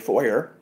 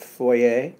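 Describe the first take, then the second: First: It is said in an American way, ending 'er'. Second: It is said in a Canadian way, ending 'ay'.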